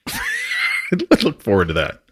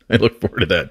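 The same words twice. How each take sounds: First: Laughing. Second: Said in the usual way. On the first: Real, not acted. Host laughs at guest's boast.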